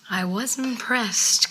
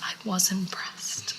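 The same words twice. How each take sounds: First: Drawn-out, weighty admission; slow and emphatic. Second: Slow hushed whisper. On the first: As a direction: say it slowly like a grand confession. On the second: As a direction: whisper it like a guilty secret. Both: Real, not acted.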